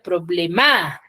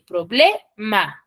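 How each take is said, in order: First: The stress is on the last syllable. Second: The stress is on the middle syllable. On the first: The speaker calls it wrong. "si supuestamente llevase en la ma, entonces yo diría problema" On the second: The speaker calls it right. "dice que cae en la ble, problema"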